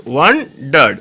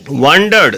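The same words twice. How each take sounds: First: "wandered" broken into two, wan, dard; split into syllables. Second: Said in the usual way. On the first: Shown as a demonstration. Teacher showing two syllables, "wandered" said in separate parts. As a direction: pause between both syllables of "wandered". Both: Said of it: "দেখো দুটো syllable রয়েছে".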